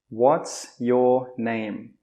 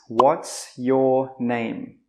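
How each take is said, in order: The two takes are said the same way.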